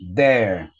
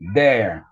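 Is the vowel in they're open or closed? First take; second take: open; open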